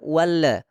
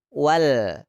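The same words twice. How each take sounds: First: The final L is released with a bounce. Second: The final L is held without a bounce. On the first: The speaker calls it wrong. "ada yang membaca kol-kolah" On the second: The speaker calls it right. "huruf lam itu ditempelkan di langit-langit"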